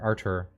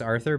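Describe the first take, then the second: First: The middle consonant is a plain 't' sound. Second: The middle consonant is a 'th' sound. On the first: The speaker calls it right. "but it's Ar- Artur" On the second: The speaker calls it wrong. "I always think it's Arthur"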